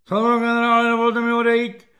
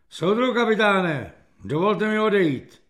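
First: High, loud parade-ground address; chest-out military request. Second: Raised voice, a mild military call. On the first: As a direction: shout it formally, standing to attention. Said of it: "vypjal prsa Kefalín". (hlasité vojenské hlášení) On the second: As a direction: call out a formal request, slightly raised. (zvýšeným hlasem zvolat) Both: A narrator's reading.

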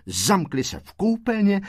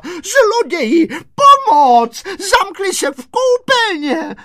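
First: Said in the usual way. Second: Very high, loud, drawn-out cries; screaming for help. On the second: A narrator's reading. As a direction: raise the alarm to the neighbours. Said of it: "vyběhla na chodbu a křičela". (křičí o pomoc, vysoko a táhle)

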